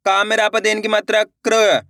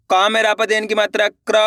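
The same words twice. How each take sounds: The two takes are said the same way.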